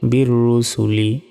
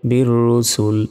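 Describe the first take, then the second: First: The last word ends with an 'i' vowel. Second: The last word ends on a bare consonant. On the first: The reading continues without a stop. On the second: The reader stops at this word.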